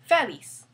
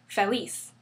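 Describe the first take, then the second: First: The stress is on the first syllable. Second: The stress is on the last syllable. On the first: The speaker calls it wrong. "not feliz" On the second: The speaker calls it right. "the stress falls on the last syllable. That's why we say feliz"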